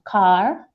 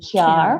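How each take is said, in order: First: The k sound goes straight into the vowel. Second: A y glide follows the k sound. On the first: "instead of saying car" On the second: "you may find them saying kyar"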